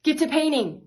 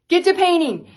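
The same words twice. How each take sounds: First: Said in the usual way. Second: Higher, louder shouted order; louder repeat. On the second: Retold or imitated. Bobby with a pile of orders, shouting at his wife to paint. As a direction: drive it home, now shouting. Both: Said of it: "And he goes".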